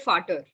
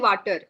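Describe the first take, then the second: First: The word begins with an F sound. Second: The word begins with a V sound. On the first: The speaker calls it right. "You will say fater" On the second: The speaker calls it wrong. "You will not say water. You will not make the original sound of V"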